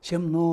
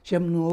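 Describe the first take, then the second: Both takes have the same delivery.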